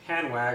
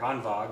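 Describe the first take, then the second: First: The name is said with an English pronunciation. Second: The name is said with a German pronunciation.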